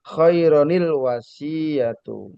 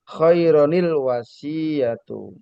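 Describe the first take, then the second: First: A linking 'ni' sound joins the two words. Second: The same.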